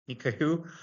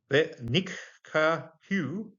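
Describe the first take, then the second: First: Said in the usual way. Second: "ve nikkahu" drawn out slowly, each syllable set apart. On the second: Shown as a demonstration. Teacher spells out "ve nikkahu" slowly for students.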